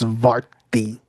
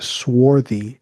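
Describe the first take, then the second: First: The word starts with an 'sv' sound. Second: The word starts with an 'sw' sound. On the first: The speaker calls it right. "It's svarti" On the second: The speaker calls it wrong. "it's not swarthy"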